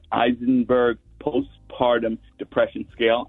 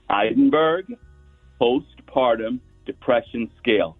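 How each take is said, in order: First: It is said at normal speed. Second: It is said slowly and carefully.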